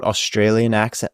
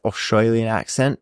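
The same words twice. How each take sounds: First: Said in the usual way. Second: Mock broad Australian vowels; Australian accent. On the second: Shown as a demonstration. Interviewer asks about thicker accent, mock Australian accent. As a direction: put on a thick Aussie twang. Repeats the phrase in mock Aussie.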